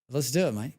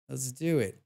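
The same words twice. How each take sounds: First: Light Australian accent, hammed up; Aussie cheer in an Australian accent. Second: Said in the usual way. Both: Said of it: "weird hearing Aussie accents in games".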